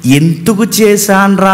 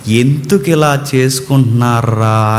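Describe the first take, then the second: First: "ఎందుకు చేశాన్రా?" drawn out slowly, as a rueful maker regretting his work; slow self-reproach, the reading he rejects; regretful God, wrong reading. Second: Put-on "ఎందుకు ఇలా చేసుకుంటున్నారా?" lower and slow, a father grieving over his children; slow, lower lament over people; grieving God, right reading. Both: Shown as a demonstration. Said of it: "అని కాదు".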